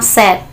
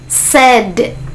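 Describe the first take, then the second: First: The final D is unreleased, without a burst. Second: The final D is released with a clear burst. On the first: The speaker calls it wrong. "jangan bilang sad" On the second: The speaker calls it right. "letupannya harus jelas gitu"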